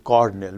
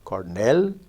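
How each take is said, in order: First: The stress is on the first syllable. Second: The stress is on the second syllable. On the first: The stress moved to avoid a clash. "shifts to Cornell because of stress clash" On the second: The word is said on its own. "the stress on the independent word Cornell"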